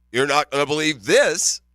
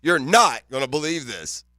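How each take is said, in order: First: "this" carries the weight at the end; stress on THIS. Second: "not" hit hardest, the rest falls away; "not" stressed, falling tune. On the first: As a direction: land the stress on "this", falling. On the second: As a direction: lean on the word "not" in disbelief. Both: Shown as a demonstration. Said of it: "It's all about where you put the emphasis on the word".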